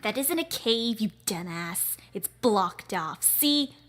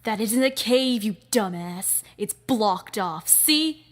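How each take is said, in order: First: Scornful boss. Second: Loud, contemptuous put-down; scornful boss. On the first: Boss correcting the henchman about the cave, scornful. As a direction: brush off the lackey with disdain. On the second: Boss snapping at the dumbass henchman, loud scorn. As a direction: scold the dumb lackey. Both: Acted.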